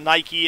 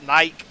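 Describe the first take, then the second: First: It is said with an ordinary English accent. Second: It is said with a Spanish accent. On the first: "instead of Nike" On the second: "he says it like with a Spanish accent"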